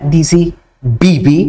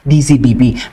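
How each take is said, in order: First: The letters are said with heavy, forceful emphasis. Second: The letters are said plainly, without extra force. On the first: It was said that way on purpose. "talagang may diin" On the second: It was a simple slip of the tongue. "dapat D Z B B"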